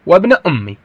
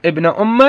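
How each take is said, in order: First: "أمي" ending in i; kasra reading. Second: "أم" ending in an open a; fatha reading. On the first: Teacher gives the other recited form, with kasra. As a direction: turn the end of "أمي" to an i sound. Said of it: "ابن أمي بالكسر". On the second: Teacher recalls how the reciters read it, with fatha. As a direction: add a short a after the mim of "أم". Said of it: "هاي قرأوها". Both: Shown as a demonstration.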